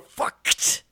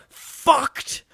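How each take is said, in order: First: The final ck sound is emphasized. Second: The opening f sound is emphasized. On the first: "or the CK" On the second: "Really emphasize the F with some flair"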